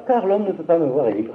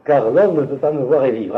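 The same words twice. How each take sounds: First: Mild rote reading, pitched higher; lecture routinière. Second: "Car l'homme ne peut pas me voir et vivre" read with insistent emphasis; lecture avec accentuation. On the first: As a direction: read it out of habit, without insistence. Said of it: "habitué, on lit ça". (lecture machinale, par habitude, un peu plus aiguë) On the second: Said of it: "Il faut le lire avec un accent". (« Car l'homme ne peut pas me voir et vivre » lu avec insistance) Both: Shown as a demonstration.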